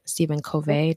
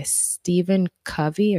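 First: Covey with long "oh", ending in "vay"; Covey as koh-VAY. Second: Covey with a short "uh", stressed first; Covey as CUV-ee. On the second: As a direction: say Covey like "CUV-ee", rhyming with "lovey". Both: Shown as a demonstration. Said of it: "depending on how you pronounce it".

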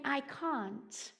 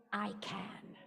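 First: Said in the usual way. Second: Quiet affirmation. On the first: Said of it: "instead of saying". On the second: Shown as a demonstration. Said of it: "begin to say".

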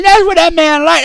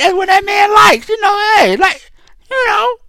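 First: Said in the usual way. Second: High-pitched, shouted emphatic repeat; hyped correction shouting the point; excited shout. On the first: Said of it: "corrected to likes". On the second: Real, not acted. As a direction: shout it back even higher, amused. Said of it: "repeated and corrected".

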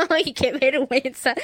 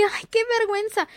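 First: Slow, amused "Ay, qué vergüenza" with a laugh behind it; light laughing cringe; embarrassed but laughing. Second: Mock crying from shame. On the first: Retold or imitated. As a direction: shrug off the shame with a chuckle. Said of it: "Pero te ríes". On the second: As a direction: act like you're about to cry from embarrassment. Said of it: "llorar por la vergüenza".

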